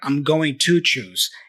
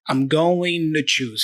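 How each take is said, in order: First: 'Going to' is said fully and carefully. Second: 'To' is reduced with a very light D. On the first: "nor I'm going to choose" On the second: "He's kind of in the middle"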